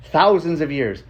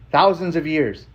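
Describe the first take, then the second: No difference in how they are said.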